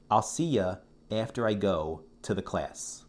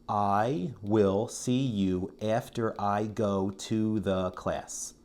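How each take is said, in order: First: The sentence is spoken quickly with reductions. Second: The sentence is spoken slowly and fully.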